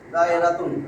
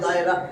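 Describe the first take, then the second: First: The word keeps its full ending. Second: The word is cut short at the end. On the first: The reciter carries on without stopping. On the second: The reciter stops at this word.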